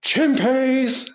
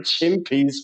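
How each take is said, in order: First: High-pitched imitated yell, no real volume; mock group shout. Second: Said in the usual way. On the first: Schoolboys shouting nonsense to wind up their teacher, mock shout. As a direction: call it out high, like rowdy schoolkids. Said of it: "all the lads on the bus just shouted out". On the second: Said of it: "we just spent the whole fucking school trip saying".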